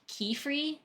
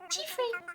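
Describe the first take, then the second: First: The name begins with a hard K sound. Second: The name begins with a ch sound. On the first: The speaker calls it right. "I think they have like a hard" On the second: The speaker calls it wrong. "I always called him like Chiefree"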